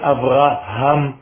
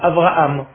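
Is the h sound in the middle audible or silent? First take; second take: audible; silent. First: The middle h sound is clearly pronounced. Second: The middle h sound is dropped. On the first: The speaker calls it right. "c'est Abraham" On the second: The speaker calls it wrong. "Ce n'est pas Abraham"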